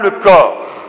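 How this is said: It is said flatly, like a cold formula. It is just a routine ritual phrase. The speaker calls it wrong. "on ne dit pas une formule froide, protocolaire"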